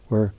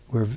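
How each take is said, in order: Both takes have the same delivery.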